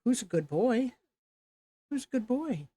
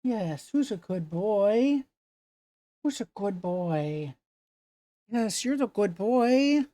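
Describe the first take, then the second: First: High singsong pet voice; talking to a dog. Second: Talking to a dog. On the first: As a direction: coo praise at the dog. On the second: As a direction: praise the dog sweetly. Baby talk to dog. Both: Real, not acted.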